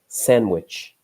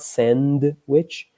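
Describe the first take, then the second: First: The D sound is left out. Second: The D sound is clearly pronounced. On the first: The speaker calls it right. "we don't really pronounce the D" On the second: The speaker calls it wrong. "So it's not sandwich"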